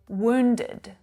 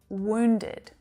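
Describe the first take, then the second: No difference in how they are said.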